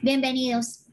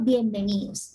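First: It is said in a curt, rude tone. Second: It is said in a warm, friendly tone. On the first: The speaker is annoyed and unwelcoming. The speaker calls it wrong. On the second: The speaker is welcoming and polite. The speaker calls it right.

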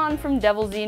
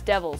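First: The name ends with an extra 'zee' syllable. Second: The name ends with a plain 's' sound. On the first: The speaker calls it wrong. "not Devil Z" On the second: The speaker calls it right. "I've learned recently it's Devils"

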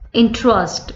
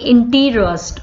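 First: The middle E is dropped, giving two syllables. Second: The middle E is pronounced, giving three syllables. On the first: The speaker calls it right. "E is not coming" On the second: The speaker calls it wrong. "we are not saying interest"

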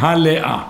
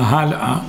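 First: The vowel sign after the first syllable is voiced. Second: The vowel sign after the first syllable is silent. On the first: The speaker calls it wrong. "אתה לא אומר" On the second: The speaker calls it right. "הטעם נמצא בהי הראשונה ... הוא נשאר נח"

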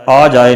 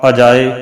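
First: The word starts with a long 'aa' vowel. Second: The word starts with a short 'a' vowel. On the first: The speaker calls it wrong. "ਆ ਜਾਏ ਨਹੀਂ ਕਰਨਾ" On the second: The speaker calls it right. "ਪਾਠ ਅਜਾਏ"

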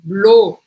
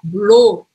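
First: The vowel is a Portuguese 'o' sound. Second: The vowel is a Portuguese 'o' sound.

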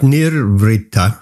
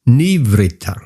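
First: An r sound comes before the v. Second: No r sound comes before the v. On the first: The speaker calls it wrong. "I would say it's not Nirvritta" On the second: The speaker calls it right. "There is no R"

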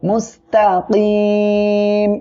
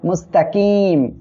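First: The vowel before the final m is stretched long. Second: The vowel before the final m is kept short. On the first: The speaker calls it right. "মুস্তাকিম এমন পড়তে হবে" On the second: The speaker calls it wrong. "কেউ যেন এখানে বলবেন না মুস্তাকিম, এটা বললে কিন্তু ভুল হবে"

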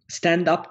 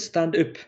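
First: The vowel in 'up' is a plain English sound. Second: The vowel in 'up' sounds fronted, like 'ü'. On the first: "stand up diyeceğine" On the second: "Ü diye telaffuz ediliyor"

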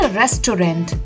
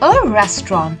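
First: The middle vowel is sounded fully, as the spelling suggests. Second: The middle vowel is dropped, giving a short two-beat word. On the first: The speaker calls it wrong. "not a restaurant, which it might seem from its spelling" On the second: The speaker calls it right. "The correct pronunciation is a restaurant"

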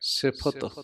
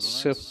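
First: The f sound is fully stressed. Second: The f sound is weak. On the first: The speaker calls it right. "ਫੱਫਾ ਪੂਰਾ ਜ਼ੋਰ ਦੇ ਕੇ ਬੋਲਣਾ" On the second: The speaker calls it wrong. "ਸਿਫਤ ਨਹੀਂ ਕਹਿਣਾ"

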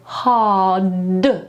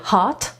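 First: The final sound is a voiced d. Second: The final sound is a voiceless t. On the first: The speaker calls it right. "tylko ja mówię hard. Musi być d na końcu" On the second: The speaker calls it wrong. "ja nie mówię hard"

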